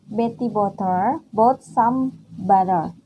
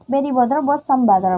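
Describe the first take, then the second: First: It is said at normal speed. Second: It is said fast.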